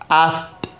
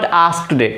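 First: The word ends in a plain t sound. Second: The word ends in an extra id syllable. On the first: The speaker calls it right. "So its actual pronunciation is asked" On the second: The speaker calls it wrong. "not asked. Okay, it's wrong pronunciation"

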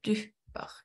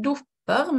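First: The first vowel is a U sound. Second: The first vowel is an O sound. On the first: The speaker calls it right. "men dupper" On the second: The speaker calls it wrong. "vi sier ikke dupper"

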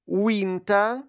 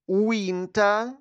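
The two takes are said the same way.

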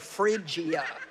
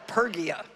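First: The word begins with an 'fr' sound. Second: The word begins with a 'per' sound. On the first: The speaker calls it right. "think of refrigerator" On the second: The speaker calls it wrong. "because I would have called it Pergia"

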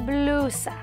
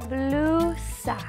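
First: It is said at normal speed. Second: It is said very slowly.

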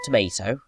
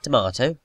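First: It is said with an American pronunciation. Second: It is said with a British pronunciation. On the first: The speaker calls it wrong. "not tomato" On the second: The speaker calls it right. "at least he said tomato"

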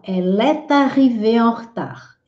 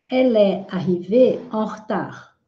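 First: The words are said with the linking sound. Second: The words are said without the linking sound. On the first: "A gente aí também pode fazer liaison" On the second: "É que eu quis facilitar para vocês"

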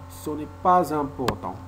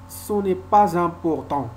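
First: A z sound links pas to important. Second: A z sound links pas to important.

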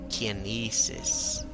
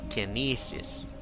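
First: The first vowel sounds like 'eye'. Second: The first vowel sounds like 'eye'.

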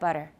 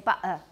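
First: The middle t is a clear t sound. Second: The middle t is a glottal stop. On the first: "instead of butter" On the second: "they will notice it if you say butter"

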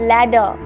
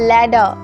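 The two takes are said the same way.

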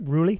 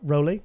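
First: The first vowel sounds like 'oo'. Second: The first vowel sounds like 'oh'. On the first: The speaker calls it right. "notice I said it right" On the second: The speaker calls it wrong. "not Roly"

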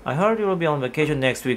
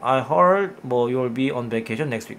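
First: It is said quickly, like a native speaker. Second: It is said slowly and hesitantly.

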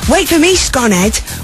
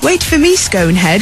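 First: It is said in a Liverpool accent. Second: It is said in a southern English accent. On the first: The speaker calls it right. "which is a real Liverpool thing to say" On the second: The speaker calls it wrong. "being a southerner, says"

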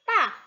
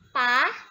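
First: It is said with the Mandarin fourth tone. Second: It is said with the Mandarin second tone. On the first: "ada keempat" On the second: "sekarang kita letakkan nada kedua"

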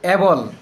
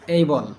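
First: The first vowel is a short 'e' sound. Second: The first vowel is an 'ay' diphthong. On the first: The speaker calls it wrong. "আমরা বলি এবল, আসলে এটা এবল না" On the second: The speaker calls it right. "এটা হবে এইবল"

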